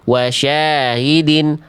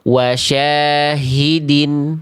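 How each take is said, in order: First: The throaty h sound is faint and barely heard. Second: The throaty h sound is clear with flowing breath. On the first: The speaker calls it wrong. "ada tapi tidak nampak, dia khofa, dia samar" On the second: The speaker calls it right. "dari pangkal rasakan aliran suara dan aliran nafasnya jelas"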